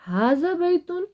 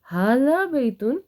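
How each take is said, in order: First: ھذا بیتن said high with a questioning lift; asked as a question. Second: ھذا بیتن said slowly as a settled statement; stated as an answer. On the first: Teacher voicing the question in the lesson example, high and questioning. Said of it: "اب آ رہا ہے آ". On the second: Teacher giving the answer to students, slow and firm. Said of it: "تو ہم کہہ رہے ہیں نعم". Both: Shown as a demonstration.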